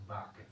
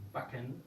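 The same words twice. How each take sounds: First: "backen" with a long, drawn a; long-vowel mispronunciation. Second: "backen" with a short a; short-vowel pronunciation. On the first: Teacher showing class what not to say, long-vowel mispronunciation. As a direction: stretch the a in "backen" wrongly. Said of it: "no decimos backen". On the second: Teacher showing class the correct German word, short-vowel pronunciation. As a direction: keep the a in "backen" brief before the k. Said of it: "esa A es corto". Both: Shown as a demonstration.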